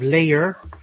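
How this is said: It ends with a clear r sound. This is the form of the accent being taught. "we're going to have layer"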